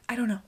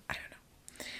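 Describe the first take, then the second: First: Said in the usual way. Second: Whispered I don't know to herself. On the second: Real, not acted. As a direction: breathe it out, unvoiced. Repeated, then whispered.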